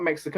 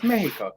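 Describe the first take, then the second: First: The word has an English-style pronunciation. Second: The word has a Spanish-style pronunciation. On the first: This is the foreign name for the country. The speaker calls it wrong. "it's not" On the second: This is the country's own name. The speaker calls it right.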